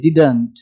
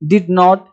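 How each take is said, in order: First: It is said as one contracted word. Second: It is said as two full words. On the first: "आपको डिडंट बोलना चाहिए" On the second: "डिड नॉट बोलो एक ही बात है"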